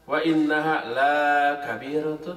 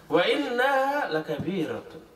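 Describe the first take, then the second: First: The vowel in 'la' is drawn out long. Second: The vowel in 'la' is kept short. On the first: Prayer is not heavy. The speaker calls it wrong. "Kalau dibaca panjang jadi terbalik artinya" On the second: Prayer is truly heavy. The speaker calls it right. "Lam dibaca pendek. ... Jangan salah baca"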